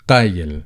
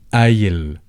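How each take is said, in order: First: The word begins with a deep q sound. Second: The word begins with a glottal stop. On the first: "you certainly can pronounce the qaf always qaf" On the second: "they pronounce it as the glottal stop"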